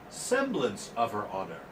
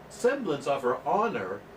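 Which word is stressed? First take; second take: semblance; honor. First: The pitch goes up on the word semblance. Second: The pitch goes up on the word honor. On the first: The speaker calls it right. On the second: The speaker calls it wrong.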